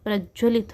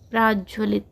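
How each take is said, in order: First: The first vowel is a short a. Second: The first vowel is a long aa. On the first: The speaker calls it right. "प्रज्वलित होना चाहिए" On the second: The speaker calls it wrong. "प्रा पे मात्रा है, लेकिन ये नहीं होना चाहिए"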